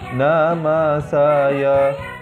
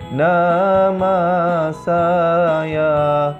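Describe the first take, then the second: First: The vowels are said short. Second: The vowels are drawn out long.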